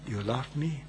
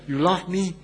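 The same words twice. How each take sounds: First: The question sounds gentle and tender. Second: The question sounds mocking and accusing. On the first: The asker shows deep, tender love. The speaker calls it right. "that wasn't the tone. Yes" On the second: The asker is rubbing the failure in. The speaker calls it wrong. "the Lord was not rubbing it in when he asked Peter that question. The Lord was not asking Peter the question in this manner"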